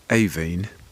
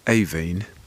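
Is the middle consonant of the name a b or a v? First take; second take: v; v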